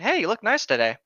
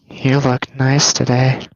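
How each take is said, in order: First: The compliment sounds casual and friendly. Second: The compliment sounds creepy and unsettling.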